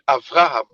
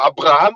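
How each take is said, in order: First: The second consonant is a V sound. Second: The second consonant is a B sound. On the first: The speaker calls it right. "ils disent Avraham" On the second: The speaker calls it wrong. "Ils disent pas Abraham"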